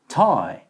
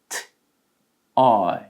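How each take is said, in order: First: The word is said smoothly without a break. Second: The word is broken into two separate parts. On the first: "연속으로 하면" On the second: "한 번 더"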